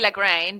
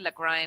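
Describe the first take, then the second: First: It is pronounced the Italian way, as spelled. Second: It is pronounced the German way. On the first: The speaker calls it wrong. "Italians would say Lagrein because that's what you how it's spelled" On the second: The speaker calls it right. "it's actually Lagrein, and, and it's a Germ- Germanic name"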